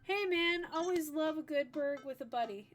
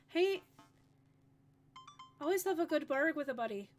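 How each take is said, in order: First: It is said in a plain accent. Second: It is said in a brogue accent.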